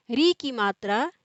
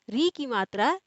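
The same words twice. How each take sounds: The two takes are said the same way.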